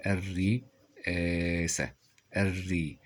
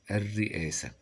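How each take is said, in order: First: Very slow الرئاسة in separated syllables; sounded out. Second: Said in the usual way. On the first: Shown as a demonstration. Teacher spelling as they speak, الرئاسة slowly broken up. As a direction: stretch and split الرئاسة before the hamza.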